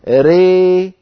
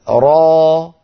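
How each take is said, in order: First: The vowel lies halfway between 'a' and 'ee'. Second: The vowel is a pure open 'a' sound. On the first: The speaker calls it right. "هذه الإمالة الكبرى" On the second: The speaker calls it wrong. "هذه ألف"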